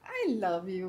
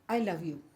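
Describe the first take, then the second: First: It is said warmly, with a smile. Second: It is said flatly, without a smile. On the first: The love is felt by the listener. The speaker calls it right. "Frequency change हुई ना" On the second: The love does not come across. The speaker calls it wrong. "Ma'am ये कौन सा I love you का तरीका, smile कहाँ है आपकी?"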